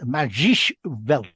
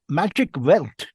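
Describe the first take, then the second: First: The first word is said like German magisch. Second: The first word is said like English magic. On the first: The speaker calls it right. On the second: The speaker calls it wrong.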